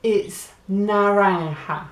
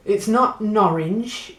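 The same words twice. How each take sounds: First: Naranja said slowly with a throaty ha ending; the right naranja, with the j said as a breathy ha, falling; slow and falling: it's naranja; correct form. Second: Norange said slowly as the wrong form; the mistaken norange, slow with a rising tune; slow and rising: it's not norange. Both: Shown as a demonstration.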